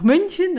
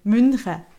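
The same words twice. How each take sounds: First: The word ends with an 'en' sound. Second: The word ends with an 'ä' sound.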